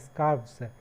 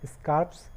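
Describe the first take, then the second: First: It ends with a v sound before s. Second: It ends with an f sound before s. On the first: "वी E S जोड़ करके" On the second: "केवल S जोड़ करके"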